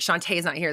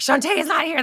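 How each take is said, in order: First: Said in the usual way. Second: "Shantae is not here" lifted high and louder, stress on "not"; higher, louder replay. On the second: Shown as a demonstration. Host replaying to a friend how she blurted it out, higher. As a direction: replay the line in a high, pointed voice. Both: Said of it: "That's why I said it like that".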